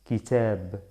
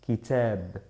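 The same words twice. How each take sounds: The two takes are said the same way.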